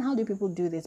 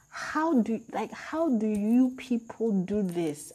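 First: Said in the usual way. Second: High, slow, incredulous; drawn-out baffled question; exasperated disbelief. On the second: Retold or imitated. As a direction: ask it as if nobody could possibly do this. Disbelief at characters' choices.

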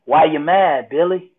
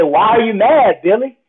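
First: Said in the usual way. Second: Higher, louder self-challenge; insistent question. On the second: Retold or imitated. Speaker's mind challenging him while heated, insistent. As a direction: confront yourself, pressing the question.

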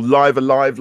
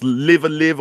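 First: "Live Alive" with both "live"s rhyming with five; long-i pronunciation. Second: "Live Alive" with both "live"s rhyming with give; short-i pronunciation. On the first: Podcaster offering the other game title reading, "Live Alive" with long i sounds. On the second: Podcaster unsure of a game title, "Live Alive" with short i sounds. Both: Shown as a demonstration.

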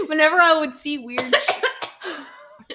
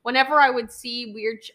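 First: Slow, laughing through the words; fighting back laughter, drawn out. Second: Said in the usual way. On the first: Real, not acted. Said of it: "are you just, like".

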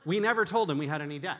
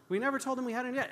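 First: "never" stressed, loud and firm. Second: "We never told him we had any debt" rushed, higher; fast and high. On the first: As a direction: land on "never" firmly. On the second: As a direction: rattle it off fast, pitched up. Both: Shown as a demonstration.

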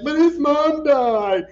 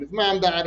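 First: Loud, high, drawn-out mock protest; mock distress. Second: Said in the usual way. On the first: Imitating everybody upset over Forrest's mom, mock distress. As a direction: wail it out, imitating upset viewers. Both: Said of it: "everybody was like".

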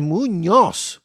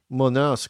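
First: "Muñoz" drawn out with a full Spanish ñ; correct Spanish Muñoz. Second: "Munoz" with a plain n instead of ñ; Americanized Muñoz. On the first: Shown as a demonstration. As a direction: say "Muñoz" slowly, MOO-NYOS, emphatic. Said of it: "ah, es Muñoz". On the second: Retold or imitated. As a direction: say "Munoz" gringo style, no tilde. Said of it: "han americanizado su apellido".

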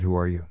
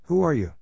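First: Said in the usual way. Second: Higher-pitched, excited question. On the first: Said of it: "Once again he said". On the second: A narrator's reading. Neon asking the green cat who he is, excited. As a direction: ask it eagerly, pitch lifted high. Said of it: "said Neon in an excited voice".

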